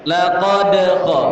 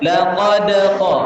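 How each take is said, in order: Both takes have the same delivery.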